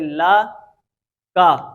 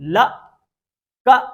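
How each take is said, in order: First: The vowels are short and smooth. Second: The vowels are cut off with a jerk. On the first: The speaker calls it right. "बगैर झटके के और बगैर खींचे हुए" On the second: The speaker calls it wrong. "ये झटका जो है ये गलत है"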